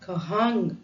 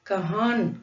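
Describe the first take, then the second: First: The word ends with a full ng consonant. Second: The word ends with a full n consonant. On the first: "கஹான் கஹாங் அப்படின்னு சொல்லாம" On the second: "கஹான் கஹாங் அப்படின்னு சொல்லாம"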